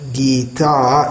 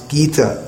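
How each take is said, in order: First: The final vowel is long. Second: The final vowel is short. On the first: The speaker calls it wrong. "here it's not Gita" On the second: The speaker calls it right. "it's Gita with a short A after the T"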